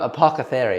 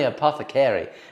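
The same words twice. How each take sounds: First: The k sound comes before the th sound. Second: The th sound comes before the k sound. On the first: The speaker calls it wrong. "the C and the T H go the other way around" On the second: The speaker calls it right. "It's definitely apothecary"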